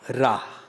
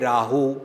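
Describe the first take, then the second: First: The word ends without a final 'oo' vowel. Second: The word ends with an added 'oo' vowel. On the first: The speaker calls it right. "ये पंक्ति भी याद रखनी है" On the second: The speaker calls it wrong. "ग्रामर का ध्यान ना रखन तो उच्चारण करते"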